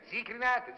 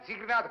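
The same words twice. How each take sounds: First: Cigarette seller crying out his wares, pitched up; street vendor's call. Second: Street vendor's call. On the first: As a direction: call 'zicrinate' high like a hawker in the street. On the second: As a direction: repeat the seller's cry 'zicrinate'. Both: Retold or imitated. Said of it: "con la sua voce nei timpani".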